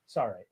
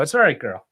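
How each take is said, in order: First: Much softer, gentle repeat to the dog; tender, quiet reassurance for a pet; soothing dog. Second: Said in the usual way. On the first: Real, not acted. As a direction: soften right down to calm the dog.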